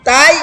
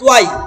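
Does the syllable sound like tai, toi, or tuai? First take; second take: tai; tuai. First: The vowel is an open 'ai' sound. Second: The syllable is split into 'tu-ai'. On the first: "তাই না তই" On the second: "আরেকটা ভুল করি"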